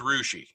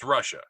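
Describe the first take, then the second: First: It is said the local way, ending 'shee'. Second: It is said as the usual country name. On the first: "Here in Ohio, it's Rushi" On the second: "That's Russia"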